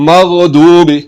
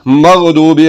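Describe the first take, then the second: The two takes are said the same way.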